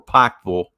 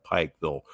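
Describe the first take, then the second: First: "Pikeville" said the local Kentucky way; local pronunciation. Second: Said in the usual way. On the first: Shown as a demonstration. Correcting himself on the town's name, "Pikeville" in local pronunciation. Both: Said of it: "to say it properly".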